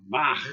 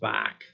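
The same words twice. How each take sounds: First: It ends with a rough, throaty ch sound. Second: It ends with a plain hard k sound. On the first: The speaker calls it right. "That's the correct way to say Bach" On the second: The speaker calls it wrong. "It's not just Bach"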